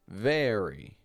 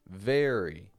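First: The first vowel sounds like 'air'. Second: The first vowel sounds like 'air'.

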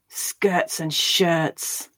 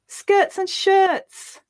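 First: It is spoken with anger. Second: It is spoken with happiness. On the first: "Now angrily" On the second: "Now we'll say it happily"

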